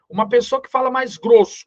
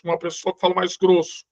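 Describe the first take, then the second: First: Said in the usual way. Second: Thick deep voice demo. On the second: Shown as a demonstration. Teacher to his students, demonstrating a thick deep voice. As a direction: put on a thicker, deeper-sounding voice.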